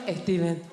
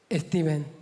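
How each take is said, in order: First: Esteban with a Spanish lilt; a light take on her Spanish mum; mum's Spanish accent. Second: Stephen said as Esteban, Spanish style; mum's Spanish accent. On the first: Spanish mum answering her daughter with Esteban. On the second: A daughter mimicking her Spanish mum saying Stephen as Esteban. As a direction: give it a hint of a Spanish mum. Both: Retold or imitated. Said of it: "She calls him".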